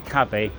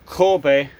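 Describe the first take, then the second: First: The first vowel sounds like 'ah'. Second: The first vowel sounds like 'oh'. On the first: The speaker calls it wrong. "I say Kabe" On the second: The speaker calls it right. "I think the pronunciation is actually Kobe"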